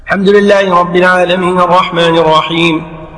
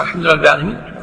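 First: Unbroken recitation on a level tone; imam reciting continuously. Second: Low, hurried follower's recitation; quick catch-up under the imam. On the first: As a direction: run the verses together as the imam. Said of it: "فرضنا أن الإمام سريع". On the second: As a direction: rattle the verse off to keep up. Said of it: "أنت بسرعة". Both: Shown as a demonstration.

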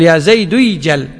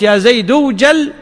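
First: "يجل" said as id͡ʒel, lower and falling, the waw dropped; correct form. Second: "اوجل" said as ud͡ʒal, keeping the waw sound, rising at the end; wrong form with waw. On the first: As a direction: give the correct "يا زيد يجل" in a settled low voice. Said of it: "تقول". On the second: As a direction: demonstrate the mistaken "يا زيد اوجل" with the waw kept. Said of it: "إذا قلت ... معناها أنك لحنت". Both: Shown as a demonstration.

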